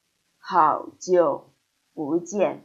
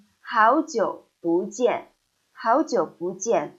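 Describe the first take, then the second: First: 好久 不见 slowly with 好 and 久 both dipping third tone; slow, heavy 好久 with two full third tones; wrong all-third-tone. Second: 好久不见 with 好 rising in second tone; 好 rises, 久 dips, 不见 falls; correct tone sandhi. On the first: Teacher showing learners the clumsy uncorrected 好久不见, slowly. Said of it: "instead of". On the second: Teacher showing learners natural 好久不见. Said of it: "So we say". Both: Shown as a demonstration.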